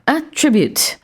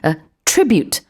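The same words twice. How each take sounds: First: The stress is on the first syllable. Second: The stress is on the second syllable. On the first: It is a noun meaning a quality or feature. "명사고 강세는 a에 들어 있습니다" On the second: It is a verb meaning something is owed to a cause. "강세는 attribute, tri 들어있었어요"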